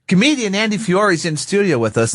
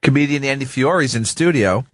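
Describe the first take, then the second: First: It is said in a formal announcer voice. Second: It is said in a casual, chatty voice.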